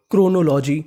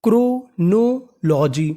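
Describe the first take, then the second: First: Said in the usual way. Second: chronology very slow, split into parts; drawn-out teaching pronunciation of chronology; syllable by syllable. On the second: Shown as a demonstration. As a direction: sound out chronology for a class. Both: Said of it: "तो meaning बनी".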